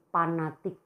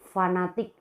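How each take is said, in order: First: The word begins with a P sound. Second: The word begins with an F sound. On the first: The speaker calls it wrong. "tidak dilafalkan dengan fonem P" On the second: The speaker calls it right. "Harus dilafalkan dengan tepat"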